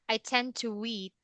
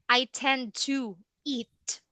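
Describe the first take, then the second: First: A British accent links 'to eat' with a W. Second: An American accent has no W between 'to eat'.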